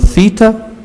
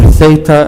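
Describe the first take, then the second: First: It is pronounced the Greek way. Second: It is pronounced the English way.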